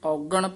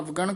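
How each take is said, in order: First: It starts with 'au' and ends 'gan'. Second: It starts with 'av' and ends 'gan'. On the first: The speaker calls it right. "ਇਹ ਔਗਣ ਪਦ ਧਿਆਨ ਨਾਲ ਉਚਾਰਨ ਕਰਨਾ ਹੈ।" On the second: The speaker calls it wrong. "ਨਾ ਅਵਗਣ ਕਹਿਣਾ ਹੈ"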